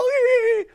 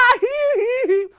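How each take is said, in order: First: A high falling sob; a widow's wailing sob; loud sob. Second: High loud wail; a shrieking burst of grief. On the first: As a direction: break into a loud falling cry. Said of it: "用个大声哭了". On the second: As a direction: let out a loud falling wail. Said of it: "是甲目屎流目屎滴". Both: Acted.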